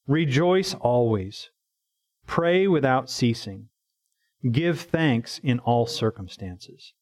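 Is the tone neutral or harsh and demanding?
neutral. It is read in a plain, neutral tone.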